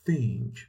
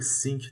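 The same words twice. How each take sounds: First: The word begins with a th sound. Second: The word begins with an s sound. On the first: The speaker calls it right. "زبونتو باید بذاری پشت دندونها" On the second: The speaker calls it wrong. "خیلی به اشتباهی think تلفظ میکنن"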